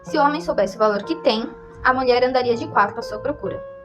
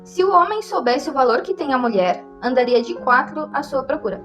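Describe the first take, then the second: First: The pause comes right after the word 'tem'. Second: The pause comes right after the word 'mulher'. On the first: The woman would search desperately for the man. "ao mudar o local da pausa, muda completamente o sentido da frase" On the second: The man would search desperately for the woman. "viu onde tem as vírgulas?"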